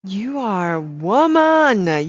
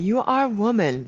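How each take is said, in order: First: Each word slow and weighty, louder; slow proud proclamation; slow emphatic declaration. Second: Said in the usual way. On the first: Real, not acted. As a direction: proclaim it slowly.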